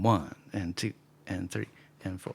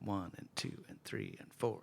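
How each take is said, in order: First: The counts bounce with small gaps between them. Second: The counts are spaced evenly with a steady beat. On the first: "there's like a pause between the eighth notes" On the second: "if you played something straight, just a regular beat"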